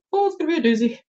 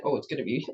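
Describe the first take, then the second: First: Much higher, playful lift; high-voiced playful warning; playful exclamation. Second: Said in the usual way. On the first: Real, not acted. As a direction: pitch it way up in mock dread. Repeats it for playful emphasis.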